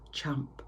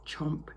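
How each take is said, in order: Both takes have the same delivery.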